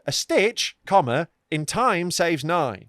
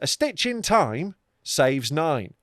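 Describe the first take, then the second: First: There is a pause after 'stitch'. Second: There is no pause after 'stitch'. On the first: A timely stitch saves nine later stitches. The speaker calls it right. "I now get it that a stitch, comma, in time saves nine" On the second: It sounds like stitching time itself. The speaker calls it wrong. "the way everyone says it is"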